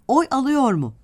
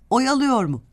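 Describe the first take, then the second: First: A short break separates 'oy' from 'alıyor'. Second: 'Oy' and 'alıyor' run together as 'oyalıyor'.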